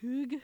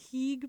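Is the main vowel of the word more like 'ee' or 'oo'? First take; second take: oo; ee. First: The main vowel sounds like 'oo'. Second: The main vowel sounds like 'ee'. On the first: The speaker calls it right. "but I think it's like hoog" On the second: The speaker calls it wrong. "this word I always mispronounce. I always want to say heeg"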